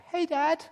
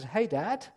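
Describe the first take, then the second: First: Hey, Dad. squeaked up high; high-pitched voice. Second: Said in the usual way. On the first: Shown as a demonstration. Jacob greeting his blind father in a high voice. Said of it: "Probably in a high-pitched voice". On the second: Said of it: "And Jacob walks into his dad's room and says".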